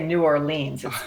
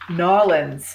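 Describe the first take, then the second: First: The name is said in full with every syllable. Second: The name is squeezed into a short, clipped form. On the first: This is how outsiders say it. The speaker calls it wrong. "I'm not allowed to say New Orleans" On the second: This is how locals say it. The speaker calls it right. "as they like to pronounce it"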